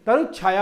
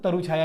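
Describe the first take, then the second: First: The 'ch' sound is held long and doubled. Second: The 'ch' sound is short and single. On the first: The speaker calls it right. "लेकिन तरु छाया होता है यहाँ पर, चौ जो होता है वो स्वर रहित होता है" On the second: The speaker calls it wrong. "तो आपने तरु छाया बोला तो तरु छाया ही लिखा"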